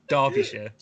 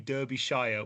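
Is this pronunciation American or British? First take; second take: British; American. First: It is said with a British pronunciation. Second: It is said with an American pronunciation. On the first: The speaker calls it right. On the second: The speaker calls it wrong. "which is how most Americans say stuff like that"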